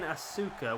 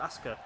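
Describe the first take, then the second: First: The middle u vowel is fully sounded. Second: The middle u vowel is dropped, said quickly. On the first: "which is how it's spelt" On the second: "you're just missing the U out really"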